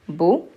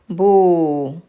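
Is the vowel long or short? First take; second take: short; long. First: The vowel is short. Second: The vowel is long. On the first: "Ba dhamma" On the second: "Ba waw"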